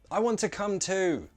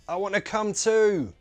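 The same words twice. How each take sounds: First: The T sounds are fully released. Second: The T sounds are glottal stops. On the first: "let's try both as true T's" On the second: "Now let's try both as glottal T's"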